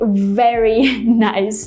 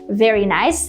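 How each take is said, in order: First: The V sound is strongly exaggerated. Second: The V sound is light and natural. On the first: The speaker calls it wrong. "they don't say very nice" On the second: The speaker calls it right. "when people say very nice"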